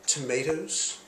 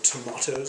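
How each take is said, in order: First: It is said with an American pronunciation. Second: It is said with a British pronunciation.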